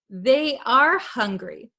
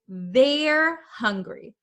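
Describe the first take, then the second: First: They are is said as two full words. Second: They are is shortened into one syllable. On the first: "They are, they are" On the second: "when we use the contraction, we would say"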